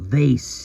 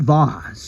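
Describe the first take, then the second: First: It is said with an American accent. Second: It is said with a British accent.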